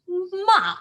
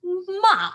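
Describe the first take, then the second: First: The pitch falls sharply downward. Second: The same.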